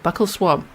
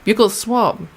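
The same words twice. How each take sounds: First: The first word sounds like 'buckle'. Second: The first word does not sound like 'buckle'. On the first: "It's buccal, like a buckle" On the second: "But some people say buccal"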